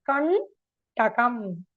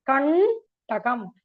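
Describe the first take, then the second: The two takes are said the same way.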